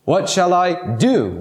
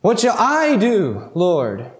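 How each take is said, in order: First: "do" drawn out as the key word; stress on DO. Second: "I" as the key word, long and lifted; stress on I. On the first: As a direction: DO held long and set apart at the end. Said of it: "the emphasis is on the word do". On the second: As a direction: lean on the word I, then let Lord fall. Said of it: "emphasis should be on the word I". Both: Shown as a demonstration.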